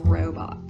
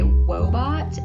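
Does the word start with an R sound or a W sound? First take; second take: R sound; W sound. First: The word starts with an R sound. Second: The word starts with a W sound. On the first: "instead of robot" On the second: "he'll say wobot instead of robot"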